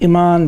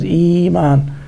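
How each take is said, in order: First: A glottal stop follows the first vowel. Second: A long vowel follows with no glottal stop.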